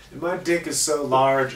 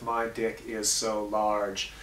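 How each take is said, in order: First: Said in the usual way. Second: Slow, deliberate segment title; slow title read. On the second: Shown as a demonstration. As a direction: announce the title slowly. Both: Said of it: "we always end the High Def Skimp Killer Show in High Def with".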